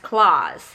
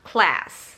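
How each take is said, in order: First: The vowel is a long, back ah sound. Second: The vowel is a front, flat a sound. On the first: "British English, mereka mengatakan class as claws" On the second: "yang diucapkan uh, sebagai E"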